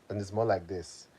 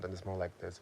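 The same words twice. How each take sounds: First: It is spoken in a Nigerian accent. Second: It is spoken in an American accent. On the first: "If I'm speaking in my Nigerian accent" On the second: "Versus if I'm speaking in my American accent"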